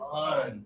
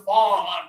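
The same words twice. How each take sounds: First: The vowel sounds like 'uh', from deep down. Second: The vowel sounds like 'aw', pressed. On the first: The speaker calls it right. "it needs to start down here" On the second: The speaker calls it wrong. "you're still doing like an all with some pressure"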